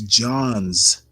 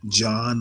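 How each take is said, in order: First: The name is said with a final s sound. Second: The name is said without a final s sound. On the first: The speaker calls it right. "It's Johns with an S" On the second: The speaker calls it wrong. "one of my pet peeves is when people pronounce it John Hopkins"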